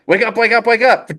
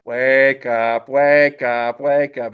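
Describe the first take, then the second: First: High, insistent "wake up" on repeat; urgent waking call. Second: Each "wake up" stretched out at usual pitch; slow-motion waking call. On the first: Zhen trying to wake sleeping Po, urgent high call. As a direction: rouse a heavy sleeper, high-pitched and urgent. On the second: Zhen still waking Po, slow drawn-out call. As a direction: stretch out every word, slowly and evenly. Same words, slowed down. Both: Acted.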